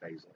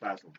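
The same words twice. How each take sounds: First: It is said with an American accent. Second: It is said with a British accent.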